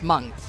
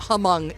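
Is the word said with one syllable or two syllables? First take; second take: one syllable; two syllables. First: The word is said with one syllable. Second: The word is said with two syllables. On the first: The speaker calls it right. "it's just Hmong" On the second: The speaker calls it wrong. "it's not Hmong"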